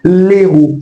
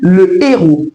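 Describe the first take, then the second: First: The article's vowel is dropped before the noun. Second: The article's vowel is fully pronounced before the noun. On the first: The speaker calls it wrong. "Ne dites pas l'héros" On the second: The speaker calls it right. "On dit le héros"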